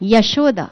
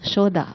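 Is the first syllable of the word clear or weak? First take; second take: clear; weak. First: The first syllable is clearly and fully heard. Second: The middle syllable is stressed; the first is weak. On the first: The speaker calls it right. "సో యా చక్కగా వినపడాలి" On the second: The speaker calls it wrong. "If you stress on షో more"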